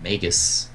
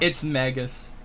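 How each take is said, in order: First: Magus said as MAY-gus, long a as in day. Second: Magus said as MAG-us, short a as in cat. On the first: Shown as a demonstration. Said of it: "Is it Magus or Magus?". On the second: Retold or imitated. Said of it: "Third Twin's like".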